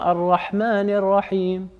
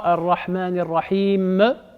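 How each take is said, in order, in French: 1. Le m final s'entend à peine. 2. Une voyelle supplémentaire suit le m final. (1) "on n'entend même plus le mime" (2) "Le E à la fin, ça n'existe pas en arabe"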